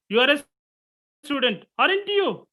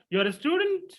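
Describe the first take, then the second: First: High-pitched "you are a student", lifted "aren't you" tag; question-tag tune. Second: "you are a student" lifted high into a question; statement as question. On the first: Teacher demonstrating a question tag, high checking tune on "aren't you". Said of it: "Question tag". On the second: Teacher showing tone replacing question structure, questioning tune on "student". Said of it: "Without using that interrogative sentence structure, modification your tone". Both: Shown as a demonstration.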